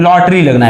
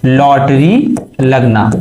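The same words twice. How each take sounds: First: Said in the usual way. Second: lottery लगना said slowly, word by word; slow repeat for class. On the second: Shown as a demonstration. (धीरे-धीरे, ज़ोर देकर) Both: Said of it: "क्या लगना?".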